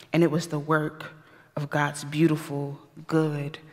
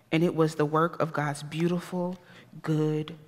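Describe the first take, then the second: No difference in how they are said.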